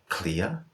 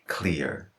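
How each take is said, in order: First: It is said without a US or Irish accent. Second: It is said with a US or Irish accent.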